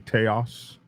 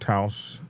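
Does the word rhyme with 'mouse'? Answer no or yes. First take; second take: no; yes. First: The word does not rhyme with mouse. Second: The word rhymes with mouse. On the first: This is how it looks to an outsider. "even though I want to say Taos" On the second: This is how locals say it. "I'm told Taos sounds like mouse"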